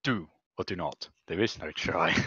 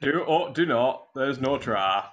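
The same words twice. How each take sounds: First: Lower, softer Yoda line; lightly voiced little Jedi master; understated Yoda delivery; Yoda quote. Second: Lightly put-on Yorkshire Yoda line; a hint of Yorkshire on the wise saying; mild Yorkshire Yoda; Yorkshire accent. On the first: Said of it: "Yorkshire accent". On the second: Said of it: "I'll do it in a Yorkshire accent".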